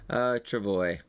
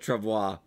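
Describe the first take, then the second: First: The word is pronounced in a non-French way. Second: The word is pronounced in a French-style way. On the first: The speaker calls it right. "but no, it's not French" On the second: The speaker calls it wrong. "I thought it said Travois"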